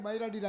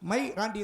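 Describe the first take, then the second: First: The two words are run together quickly. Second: The two words are said slowly and separately. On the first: It sounds like a Tamil insult. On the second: It names the owner's dog.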